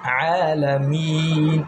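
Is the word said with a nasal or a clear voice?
nasal. The sound goes through the nose. The speaker calls it wrong.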